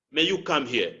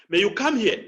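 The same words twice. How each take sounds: First: "May you come here" kept low, falling on "here"; "May you come here" with little push, voice dropping; differentiated emphasis. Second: "come" stressed and lifted in "May you come here"; "May you come here" with the weight on "come"; differentiated emphasis. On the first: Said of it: "The same statement may mean ma-, different meanings". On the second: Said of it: "the word you want to emphasize". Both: Shown as a demonstration.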